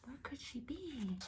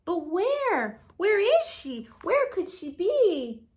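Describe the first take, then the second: First: Much softer, hushed echo of the question; whisper. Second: Higher, worried little bird voice; searching, a touch anxious; baby bird wondering. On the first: Shown as a demonstration. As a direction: whisper it to the children. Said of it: "repeats the question hushed". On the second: Acted. Bird wonders where mother is.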